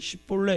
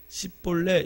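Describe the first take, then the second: First: The word begins with an 'sh' sound. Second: The word begins with an 's' sound. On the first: The speaker calls it right. "이렇게 대답해야 되는데" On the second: The speaker calls it wrong. "쉬 발음을 시 발음으로 하는 습성이 있었습니다"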